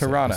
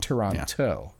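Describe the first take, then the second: First: The second T sound is dropped. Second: The second T sound is clearly pronounced. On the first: The speaker calls it right. "The second T is silent" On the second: The speaker calls it wrong. "Not Toronto"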